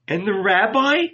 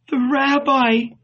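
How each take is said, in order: First: High, pleading rising question; heartrending question. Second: High, faint-hearted plea, not hushed; weak murmur. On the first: Magdalene asking disciples after the rabbi, heartrending. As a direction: plead for news, pitched up. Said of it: "she asked in a heartrending voice". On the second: Mary leaning on the wall, weakly pleading. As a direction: plead weakly, pitched well up. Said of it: "she murmured weakly". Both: A narrator's reading.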